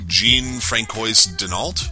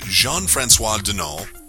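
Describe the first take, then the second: First: The name is said with an American pronunciation. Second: The name is said with a French pronunciation. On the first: "Here in America, we'd call you" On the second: "I hope I'm saying that right"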